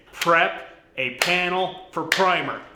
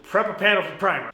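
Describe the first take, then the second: First: Slow and deliberate, with pauses between words; measured reset, each word set apart; slow, careful enunciation. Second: Higher, quick tongue-twister attempt; fast tongue twister. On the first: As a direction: spell out "prep a panel for primer" word by word. Resets after garbled tongue twister. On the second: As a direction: rattle off "Prep a panel for primer" in one quick run. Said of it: "Say that five times fast". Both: Shown as a demonstration.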